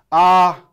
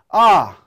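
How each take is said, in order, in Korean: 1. 처음부터 끝까지 높이가 같아요. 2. 높은 데서 시작해 올라갔다가 약간 떨어져요. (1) "쭉 처음부터 끝이 같습니다" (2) "높은 데서 시작해서 높은 데로 올라갔다 약간 떨어집니다"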